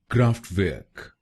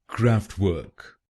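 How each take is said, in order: First: It is said with a German accent. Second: It is said with an American accent.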